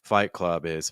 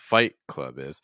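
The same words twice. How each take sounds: First: The pitch stays nearly level across all three words. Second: The pitch is highest on Fight, then steps down. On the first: The speaker calls it wrong. "I feel like the pitches are almost the same" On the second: The speaker calls it right. "Then Club is going to go down in pitch a little bit"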